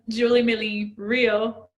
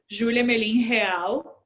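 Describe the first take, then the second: First: The name is said with English pronunciation. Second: The name is said with Portuguese pronunciation. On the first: "in English" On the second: "I'll say it in Portuguese now"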